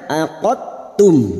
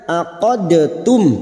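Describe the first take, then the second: First: The d merges smoothly into the t. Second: The d has an echoing bounce before the t. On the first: "menghilangkan sifat qalqalanya" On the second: "yang asalnya aqadtum"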